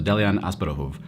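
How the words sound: The name is said with a Bulgarian pronunciation.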